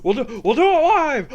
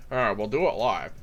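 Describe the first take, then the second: First: High, loud overwrought newsman; Bill O'Reilly. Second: Low, slightly missed newsman impression; a lightly put-on low presenter voice; Chris Hansen. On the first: Acted. Comedian spoofs a TV host climaxing, Bill O'Reilly impression. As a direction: push the voice up high and strained. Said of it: "All right, that's my Bill O'Reilly". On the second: Comedian tests a broadcaster voice, light Chris Hansen impression. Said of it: "that's more my Chris Hansen impersonation".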